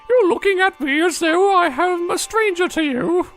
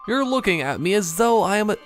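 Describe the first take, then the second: First: It is said in a crazy old woman voice. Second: It is said in the speaker's normal voice.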